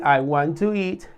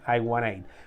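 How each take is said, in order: First: Want and to are said as two full words. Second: Want and to blend into one word, wanna. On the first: This is the standard, more formal form. "en vez de decir" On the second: This is the informal, casual form. "pues que te digan I wanna eat"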